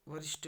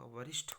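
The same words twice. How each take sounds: First: वरिष्ठ ending in unaspirated ट; wrong pronunciation. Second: वरिष्ठ ending in aspirated ठ; correct pronunciation. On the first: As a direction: say वरिष्ठ as "varisht", no puff. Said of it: "नहीं होगा". (वरिष्ठ के अंत में ट बोलें) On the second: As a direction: say वरिष्ठ as "varishth", with a puff. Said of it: "होगा". (वरिष्ठ के अंत में महाप्राण ठ बोलें) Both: Shown as a demonstration.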